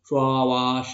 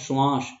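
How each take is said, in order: First: The word is split with a break inside. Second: The word is said in one unbroken go. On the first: The speaker calls it wrong. "श्वास ऐसा थोड़ी बोल रहा हूँ" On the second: The speaker calls it right. "यहाँ पर नहीं रुकना पड़ा है ना हमें"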